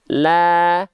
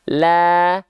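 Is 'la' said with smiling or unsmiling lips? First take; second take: smiling; smiling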